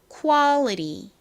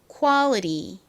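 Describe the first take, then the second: The two takes are said the same way.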